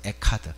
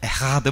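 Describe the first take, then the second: First: The middle consonant is a hard k sound. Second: The middle consonant is a breathy h sound. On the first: "에카드라고 나왔어요" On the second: "히브리 말로는 C 발음이 흐 발음이"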